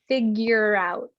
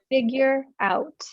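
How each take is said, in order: First: The two words blend together like one word. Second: The two words are said as separate words. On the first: "But a native speaker will say figure out" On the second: "This phrasal verb is figure out"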